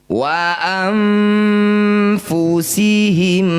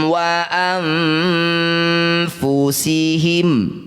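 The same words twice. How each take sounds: Both takes have the same delivery.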